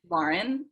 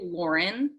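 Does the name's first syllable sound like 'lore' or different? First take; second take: different; lore. First: The first syllable does not sound like 'lore'. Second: The first syllable sounds like 'lore'. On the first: This is how the speaker says her own name. "but it's Lauren" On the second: This is how other people say the name. "like L O R"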